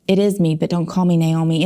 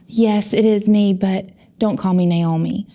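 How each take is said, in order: First: It is said in a plain, matter-of-fact way. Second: It is said in an exaggerated, dramatic way.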